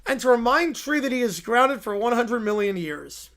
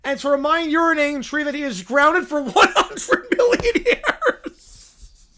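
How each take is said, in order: First: Said in the usual way. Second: Giggling as the last word jumps up; can't keep a straight face reading it; laughing through the vow. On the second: Acted. Officiant laughing mid-vow, last word squeaks up.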